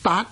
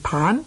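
First: It is read with a final t, like daat. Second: It is read with initial t and final n. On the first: The speaker calls it right. "系读做达" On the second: The speaker calls it wrong. "我们广东人呢多数呢读他做坦"

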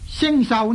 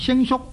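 First: The second syllable is said as sau. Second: The second syllable is said as suk. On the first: "星寿呢可以读做星叔" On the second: "可以读做星叔"

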